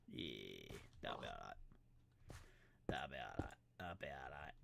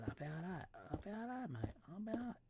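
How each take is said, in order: First: Very low, soft rumble; put-on low voice. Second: High, soft squeaky reassurance; put-on high voice. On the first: Player approves the building, low soft rumble. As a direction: drop right down and murmur it. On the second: Player approves the building, high silly voice. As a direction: pitch it right up, playfully.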